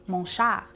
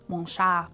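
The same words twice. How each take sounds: No difference in how they are said.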